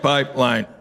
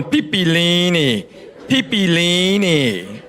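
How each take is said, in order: First: "Pipeline" said low and plainly, correcting her; quiet deadpan correction; correct pronunciation. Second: Slow, puzzled "Pipilini" for pipeline; hesitant misreading of a Hawaiian-looking sign; tourist mispronouncing. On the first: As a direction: lean in and say "Pipeline" properly. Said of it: "I leaned over and went". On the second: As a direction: sound out "Pipilini" like a confused tourist. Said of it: "She's going". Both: Retold or imitated.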